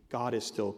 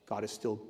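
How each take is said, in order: Both takes have the same delivery.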